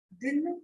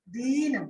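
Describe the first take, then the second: First: दिन said short and light, with a quick i; short vowel. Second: दीन with the ee drawn out and weighted; stressed long vowel. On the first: Teacher showing students the short vowel in दिन, said short and light. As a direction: keep the i in दिन brief and unweighted. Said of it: "देखिए दिन बोल रहे हैं तो स्वराघात". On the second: Teacher showing students stress in दीन, said with a drawn-out long ee. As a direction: lean on the long ee in दीन, stretching it. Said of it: "दीन जब बोल रहे हैं बलाघात". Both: Shown as a demonstration.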